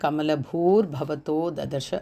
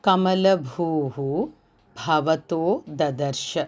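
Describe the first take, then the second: First: The first word ends with an 'r' sound. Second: The first word ends with a released 'hu' sound. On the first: "சில இடத்துல ... ரெண்டு மாதிரியும் படிக்கலாம்" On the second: "அடுத்து"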